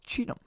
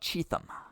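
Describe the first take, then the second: First: The middle consonant is a plain T sound. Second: The middle consonant is a TH sound. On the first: The speaker calls it right. "The H is silent" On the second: The speaker calls it wrong. "Most people say Cheatham"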